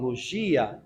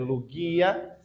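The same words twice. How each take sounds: First: The word is pronounced in a Portuguese way. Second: The word is pronounced in a Greek way. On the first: The speaker calls it wrong. "mais de uma forma portuguesada, como as pessoas falam" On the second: The speaker calls it right. "a pronúncia correta é"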